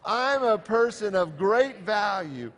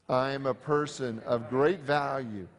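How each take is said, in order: First: It is said with the most passion. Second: It is said calmly, without extra passion.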